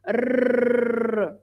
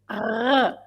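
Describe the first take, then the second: First: The r is a trill made with the tongue. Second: The r is made in the throat. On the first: This is how it is said in central Portugal. "We just vibrate our tongue like rrrr" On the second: This is how it is said in Lisbon. "they pronounce the r with their throat"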